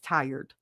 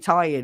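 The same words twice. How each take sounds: First: It is said in a standard accent. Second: It is said in a New Jersey accent. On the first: "it still writes tired" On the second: "my phone knows my Jersey accent. I could say tired"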